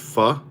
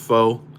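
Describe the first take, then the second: First: The vowel is a short 'uh' sound. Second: The vowel is a long 'oh' sound. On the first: The speaker calls it right. "It's pronounced pho" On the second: The speaker calls it wrong. "spelled P H O, but apparently it's not pronounced pho"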